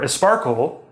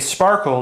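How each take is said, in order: First: An extra vowel is added at the start. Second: It is said with no extra vowels added. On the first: A Spanish speaker says it. "a Spanish learner of English would probably say something like esparkle" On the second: A native speaker says it. "a Japanese speaker wouldn't say sparkle"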